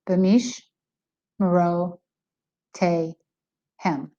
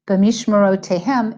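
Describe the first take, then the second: First: The word is broken into separate segments with pauses. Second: The word is said smoothly without pauses between segments. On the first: "I'm reading each of the chalakim, each of the segments" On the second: "is how we read that when we're reading it fluently"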